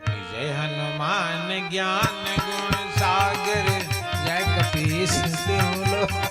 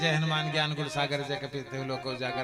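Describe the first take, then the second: First: It is recited slowly, with devotional feeling. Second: It is recited hurriedly, rushing through.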